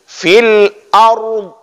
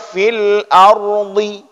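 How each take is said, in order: First: The last word ends on a bare consonant. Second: The last word ends with an added vowel. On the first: The speaker calls it right. "Tapi fil ard, dua-dua harus harus nampak" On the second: The speaker calls it wrong. "Tidak boleh baca fil ardi, tidak ada"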